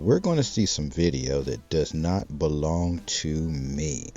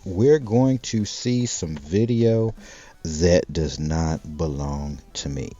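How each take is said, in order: First: It is said at normal volume. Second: It is said loudly and clearly.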